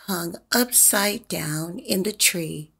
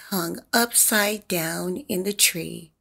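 The two takes are said the same way.

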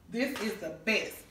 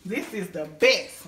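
First: Said in the usual way. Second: Loud and slow, leaning hard on "best"; stress on best. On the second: Shown as a demonstration. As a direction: hammer "best" as the final word. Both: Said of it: "When I say the best".

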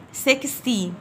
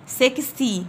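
No difference in how they are said.

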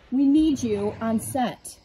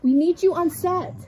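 First: Slow, pleading film assistant; frantic stressed assistant. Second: Higher, louder desperate assistant; frantic stressed assistant. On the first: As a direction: beg the star slowly, drawing each word. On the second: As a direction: call out to the star in a panic. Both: Pretend. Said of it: "he's having a diva moment".

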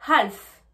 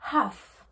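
First: HALF with the L sounded, "hal-f"; wrong pronunciation with L. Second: HALF with no L, "haaf"; silent L. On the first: English teacher showing what not to say, L voiced in HALF. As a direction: pronounce the L before the F in HALF. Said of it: "Je ne dis pas half". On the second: English teacher showing what she says, HALF with silent L. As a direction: drop the L in HALF, long open vowel. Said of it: "on ne le prononce pas". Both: Shown as a demonstration.

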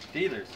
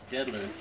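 First: "Dealers" said as "DEE-lers", no d; corrected reading. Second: "Deadler's" said as "DED-lers", with a d; wrong reading. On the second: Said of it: "I thought it was Deadler's". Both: Shown as a demonstration.

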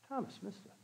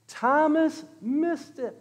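First: Very soft, almost whispered refrain; hushed aside. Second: High, slow, each word stretched; drawn-out proclamation. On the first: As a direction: let it drop to a near whisper. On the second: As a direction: sing out the refrain slowly for emphasis. Preacher proclaims the refrain. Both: Real, not acted.

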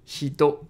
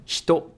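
First: Said in the usual way. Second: "Hito" with the i whispered away, almost "shto"; natural Japanese "Hito", first vowel silent; devocalized I. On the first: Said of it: "you can devocalize". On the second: Shown as a demonstration. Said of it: "you can devocalize, and it's gonna sound more natural".

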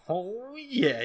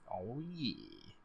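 First: Higher, drawn-out, rise-and-fall gloat; proud dad. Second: Soft, smug murmur; a quiet, self-satisfied aside; proud dad. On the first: Gamer voicing Sebastian proud of the baby, gloating. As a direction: stretch it out with swelling self-satisfaction. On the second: Gamer voicing Sebastian proud in the background, quietly smug. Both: Acted. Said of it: "He's just so proud".

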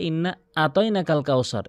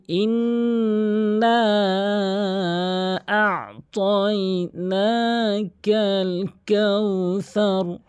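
First: আতাইনাকাল said flatly, spoken rather than chanted; plain spoken কাউসার with the wrong sounds; wrong recitation. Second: Very slow, higher chanted tilawat of আ'তাইনাকাল; proper Quran chant, each vowel drawn out; correct recitation. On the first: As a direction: show the common mistake in আতাইনাকাল. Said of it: "পঁচানব্বই percent লোক এভাবে তেলাওয়াত করে". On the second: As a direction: intone ইন্না and আ'তাইনাকাল long and melodic. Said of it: "আমি একবার তেলাওয়াত করছি". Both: Shown as a demonstration.

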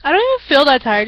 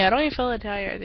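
First: Yawn-stretched and louder. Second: Said in the usual way. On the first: Real, not acted. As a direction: say it mid-yawn. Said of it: "Just keep on yawning". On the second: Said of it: "You can tell by the way I talk".

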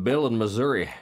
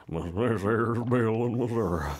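First: Said in the usual way. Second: Drawn-out put-on voice, Missouri as miz-ZUR-uh; exaggerated Missouri. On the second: Shown as a demonstration. Host playfully repeating a listener's address, Missouri drawn out as miz-ZUR-uh. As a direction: stretch Missouri slowly, ending it on UH. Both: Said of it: "as I like to say".

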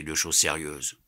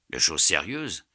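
First: Said in the usual way. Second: Surprised echo, pitch swelling on the last word; exclaimed question. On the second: A narrator's reading. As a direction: throw it back as an exclaimed question. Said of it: "s'écria Passepartout". (question exclamative, étonnée)

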